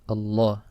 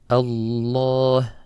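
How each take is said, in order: First: The double l sound is cut short. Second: The double l sound is held long. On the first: It sounds as if there is only one lam. The speaker calls it wrong. "if you made it too short" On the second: Both letters of the doubled lam are pronounced. The speaker calls it right. "You have to hold it"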